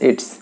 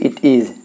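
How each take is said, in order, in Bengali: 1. একটি সংকোচিত দল বলা হয়: its। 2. দুটি আলাদা শব্দ পুরোপুরি বলা হয়।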